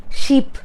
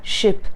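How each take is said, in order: First: "sheep" with a long tense ee; a drawn-out ee in "sheep". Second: "ship" with a short lax i, breathy; unvoiced "ship" with a quick vowel. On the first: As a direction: stretch the vowel of "sheep". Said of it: "it's ship". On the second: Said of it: "just go slow with ship". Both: Shown as a demonstration.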